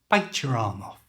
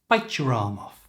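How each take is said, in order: Both takes have the same delivery.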